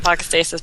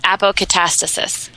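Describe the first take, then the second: First: The word is said with five syllables. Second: The word is said with six syllables. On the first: The speaker calls it wrong. "It's a lot easier to say apocastasis, but apparently it's not pronounced that way" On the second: The speaker calls it right. "apparently it's pronounced apocatastasis"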